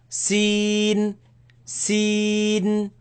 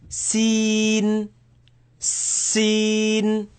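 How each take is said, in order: No difference in how they are said.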